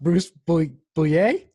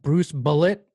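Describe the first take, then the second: First: The surname is said the French way, like boo-yay. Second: The surname is said like the English word bullet. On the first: This is how the name is really pronounced. The speaker calls it right. "actually pronounced [name]?" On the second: This is how the name was always assumed to sound. The speaker calls it wrong. "are you telling me that [name] is"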